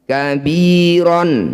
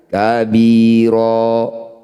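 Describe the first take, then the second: First: The word ends with a final n sound. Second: The word ends on a long vowel, no n. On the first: The reading continues without stopping. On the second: The reading stops on this word.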